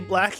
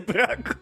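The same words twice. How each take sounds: First: It is said with English sounds. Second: It is said with Japanese sounds. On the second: "you say the English word with the Japanese sounds"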